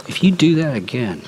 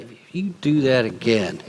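First: Empty threat. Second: Warning delivered with a hard glare on do; threat with the eye. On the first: Preacher demonstrating an empty threat to a child. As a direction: threaten it without meaning to follow through. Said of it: "empty threats". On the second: Preacher redoing the threat with the eye look. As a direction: deliver the threat again, landing on do. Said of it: "you gotta do the eye thing". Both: Shown as a demonstration.

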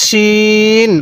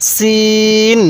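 First: শিন with a thick sh and long-held vowel; thick sheen. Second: সিন with a thin s and long-held vowel; thin seen. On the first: Teacher contrasts two confused letters, thick sh in শিন. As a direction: make the sh of শিন full, then stretch it evenly. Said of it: "শিনটা একটু মোটা করে". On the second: Teacher has learners read along, thin s in সিন. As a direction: keep the s of সিন thin, then stretch it evenly. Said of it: "সিনের উচ্চারণটা অনেকটাই চিকন". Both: Shown as a demonstration.

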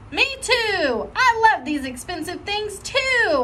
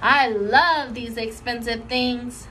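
First: Put-on high, eager child's echo; eager copying. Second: Put-on slow, proud little girl voice; Lucille. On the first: Junie copying Lucille to fit in, high and eager. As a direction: chime in eagerly, much higher. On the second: Lucille showing off to her friends, slow and proud. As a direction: savor each word proudly. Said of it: "real thrilled".

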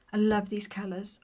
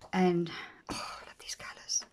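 First: Said in the usual way. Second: Whisper. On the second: Real, not acted. Flipping planner pages, gentle awe.

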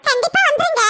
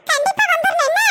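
First: Said in the usual way. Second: "என்ன" lifted in a coaxing rising ask; coaxing plea. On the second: Acted. Bride urging her sister-in-law to come, coaxing.

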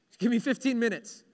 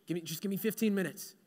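First: More voiced, firmer tired plea; acted pleading for a short rest; insistent bargaining. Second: Soft, quick, tired mumble; drained, hurried little plea; weary bargaining. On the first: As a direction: press the request with rising insistence. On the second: Acted. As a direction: beg softly for a little rest. Tired man begs for a nap.

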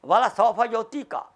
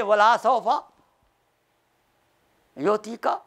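First: Said in the usual way. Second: "Wala" with the second vowel held long; prolonged sound. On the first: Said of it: "There is a fatha on lam". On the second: Shown as a demonstration. Teacher showing how meaning changes, "Wala" wrongly lengthened. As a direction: draw out the la in "Wala". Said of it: "Meaning totally change".

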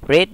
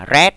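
First: "read" with a long ee, like reed; present-tense read. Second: "read" with a short e, like red; past participle read. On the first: Teacher contrasting two readings for the class, "read" as reed. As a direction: say "read" to rhyme with need. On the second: Teacher contrasting two readings for the class, "read" as red. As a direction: say "read" to rhyme with bed. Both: Shown as a demonstration. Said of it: "cách đọc thì nó khác nhau".

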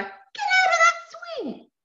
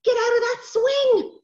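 First: Put-on high, loud, drawn-out child's order; urgent call. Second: Loud, high, slow cross order; a bit angry. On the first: Sister ordering brother off the swing, high urgent shout. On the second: Acted. Sister losing patience with brother on swing, angry shout. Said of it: "getting a little bit angry now".

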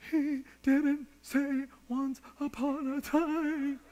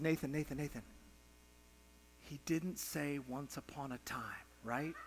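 First: High, drawn-out mock wail; imitated tearful child's whine; crying four-year-old. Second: Very soft, low, careful question; retold tender father's murmur; gentle coaxing. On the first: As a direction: wail it slowly like a bawling little boy. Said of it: "he can't even voice it". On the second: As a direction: hush right down to ask a crying child. Father gently asks his crying son.

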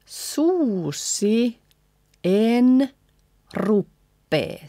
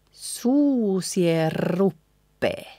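First: Suusi, en, ruppee with pauses; slow word-by-word suusi en ruppee; separate words. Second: Suusie ruppee joined with a long rolled R; slow linked suusie ruppee; lines combined, N dropped. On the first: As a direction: space out suusi en ruppee, N sounded. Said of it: "So combining first and second line". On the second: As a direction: glide suusie into a doubled R of ruppee. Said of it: "leaving out the N". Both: Shown as a demonstration.

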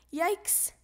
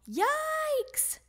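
First: Short higher exclamation; brief startled cry; alarmed yelp. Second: Long, very high yelp; high-pitched drawn-out alarm; alarmed scream. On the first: Froggy stuck to flying ball. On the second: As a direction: stretch it out high while flying off. Froggy flying with the ball. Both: A narrator's reading.

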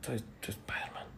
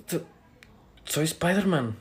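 First: Halting, secretive whisper; barely audible whisper. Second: Soft, voiced confession; low but audible. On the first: Acted. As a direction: confess it under your breath. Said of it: "no te escucho, habla bien". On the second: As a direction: say it softly but clearly enough to hear. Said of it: "habla bien".

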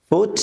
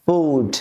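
First: "ফুট" with a brief u; short vowel. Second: "ফুট" with a drawn-out oo; long vowel. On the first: Teacher contrasting vowels for learners, short "ফুট". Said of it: "প্রথমটা টান হচ্ছে না". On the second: Teacher contrasting vowels for learners, long "ফুট". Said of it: "দ্বিতীয়টা টান হচ্ছে". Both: Shown as a demonstration.

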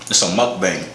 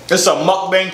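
First: Said in the usual way. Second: Higher, louder hype voice; hyped announcer. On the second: Pretend. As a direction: sell it like a show host. Repeats word in hyped voice.

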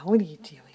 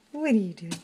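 First: Breathy whisper at the cat. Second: Said in the usual way. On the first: Real, not acted. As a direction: hush it to the cat.

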